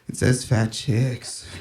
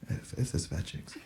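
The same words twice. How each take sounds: First: It is said louder and more clearly. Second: It is said quietly and hesitantly.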